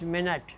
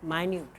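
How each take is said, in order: First: The stress is on the first syllable. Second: The stress is on the second syllable. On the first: It means sixty seconds of time. "if you mean sixty second time, span of time, it's minute" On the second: It means very small or careful. "if you mean something very close, very careful, or very trivial, then it will be pronounced minute"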